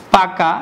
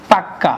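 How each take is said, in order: First: Said in the usual way. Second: পাক্কা with a held, doubled ক; doubled consonant. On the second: Shown as a demonstration. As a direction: hold the closure, then release পাক্কা. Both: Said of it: "কোনো ব্যঞ্জন দুইবার উচ্চারণ".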